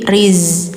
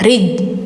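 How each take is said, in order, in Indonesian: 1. Suku kata ini berakhir dengan bunyi z. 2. Suku kata ini berakhir dengan bunyi j. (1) "tapi riz" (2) "Jadi bacanya enggak rij"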